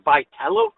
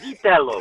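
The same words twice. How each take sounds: First: It is said with an Americanized pronunciation. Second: It is said with an Italian pronunciation. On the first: The speaker calls it wrong. "the guy calls his calls himself by Vitello" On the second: The speaker calls it right. "It's Vitello"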